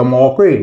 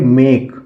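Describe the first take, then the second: First: The vowel is an 'aw' sound. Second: The vowel is an 'ay' sound. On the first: The speaker calls it wrong. "ना औ से pronounce कर सकते हैं" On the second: The speaker calls it right. "हम उसको pronounce करेंगे ए से"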